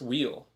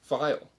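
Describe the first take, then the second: First: It starts with a w sound, like 'wheel'. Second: It starts with a v sound, like 'vial'. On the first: The speaker calls it wrong. "It's not pronounced wheel" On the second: The speaker calls it right. "It's actually supposed to be pronounced vial"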